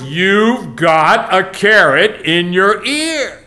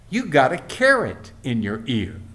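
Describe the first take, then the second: First: It is said at the loudest volume. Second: It is said at a normal loudness.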